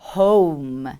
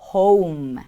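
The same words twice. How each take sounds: Both takes have the same delivery.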